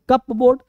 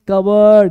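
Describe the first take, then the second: First: The p is pronounced, like cup plus board. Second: The p is silent, sounding like cubberd. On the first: The speaker calls it wrong. "लेकिन कप बोर्ड नहीं पढ़ेंगे" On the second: The speaker calls it right. "पढ़ेंगे कवर्ड"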